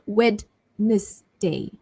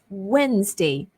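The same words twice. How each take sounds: First: Every spelled letter is pronounced. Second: One spelled letter is left silent. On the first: The speaker calls it wrong. "So it's not" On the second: The speaker calls it right.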